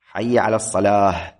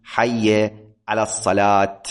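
First: "الصلاة" ending in h, as-salah; pausal ha ending. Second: "الصلاة" ending in t, as-salat, slowly; the less preferred "الصلاة" with final t; final t kept. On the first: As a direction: demo of "الصلاة" with final ha. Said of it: "هذه هي اللغة الأفصح". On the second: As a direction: stop "الصلاة" on a clear t. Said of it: "ولا تقول". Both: Shown as a demonstration.

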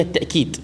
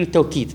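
First: "التأكيد" with hamza replacing the waw; hamza variant. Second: "التوكيد" with a waw glide, "taw-keed"; waw variant. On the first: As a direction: say "التأكيد" as "ta'-keed". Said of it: "اجعل في مكان الواو همزة". (نطق «التأكيد» بالهمزة مكان الواو) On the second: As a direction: say "التوكيد" with waw instead of hamza. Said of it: "بعض النسخ ذاكرين التوكيد". (نطق «التوكيد» بالواو) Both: Shown as a demonstration.

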